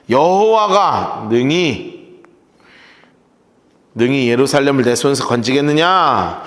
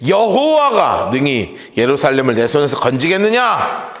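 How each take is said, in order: First: 느리게 한 마디씩 강조; 핵심 구절을 천천히 새기듯; 천천히 되짚기. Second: Said in the usual way. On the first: Shown as a demonstration. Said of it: "천천히 다시 읽기". (여호와가 능히 건지겠느냐를 느리게 또박또박) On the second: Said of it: "처음 읽기".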